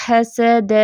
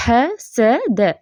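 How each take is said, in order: First: हसद read quickly, the way not to; a casual, incorrect हसद; wrong reading. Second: हसद drawn out very slowly with careful letters; correct recitation. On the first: Teacher showing students the wrong way, quick casual reading. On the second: Teacher showing students the right way, slow careful recitation. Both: Shown as a demonstration. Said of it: "अब इसको हसद ऐसे नहीं पढ़ना".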